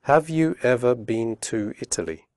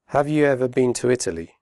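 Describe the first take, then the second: First: Slow and careful; careful slow question; slowly. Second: Fast connected speech; quick natural question; quickly. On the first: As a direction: say each word clearly. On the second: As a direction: run the words together. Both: Shown as a demonstration. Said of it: "first slowly and then quickly".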